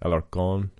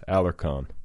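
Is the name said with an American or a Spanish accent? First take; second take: Spanish; American. First: The name is said with a Spanish pronunciation. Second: The name is said with an American pronunciation. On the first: "Do you like how I pronounce that properly?" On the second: "just say it like in Americanese?"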